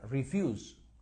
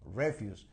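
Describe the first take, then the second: First: The stress is on the second syllable. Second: The stress is on the first syllable. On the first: It is a verb. "Cuando funciona como verbo, se pronuncia refuse" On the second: It is a noun meaning garbage or waste. "The stress is on the first syllable"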